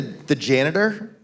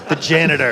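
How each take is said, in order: First: Slow drawn out. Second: Slow dramatic. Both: Shown as a demonstration. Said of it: "Has to be a little slower".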